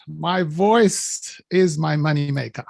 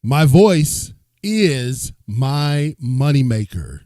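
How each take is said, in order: First: Slow, weighty demo of the line; a coach slowly models the chant line; slow model phrase. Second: Loud, slow, booming call; host booms the chant so the crowd follows; strong leading voice. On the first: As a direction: lay out each word for the crowd to copy. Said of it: "You lead 'em, C L, with this phrase". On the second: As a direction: boom it out slowly to lead the crowd. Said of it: "this requires a strong voice to lead the people". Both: Shown as a demonstration.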